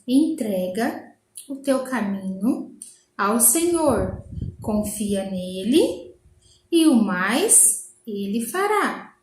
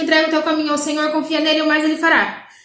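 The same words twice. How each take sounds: First: The verse is spoken at a slow pace. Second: The verse is spoken at a fast pace. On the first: "Agora vamos devagar. Falar assim, ó, devagarinho" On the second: "vamos colocar um acelerador na nossa voz"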